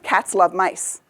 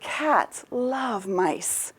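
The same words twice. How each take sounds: First: It is said short and choppy. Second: It is said slowly and smoothly.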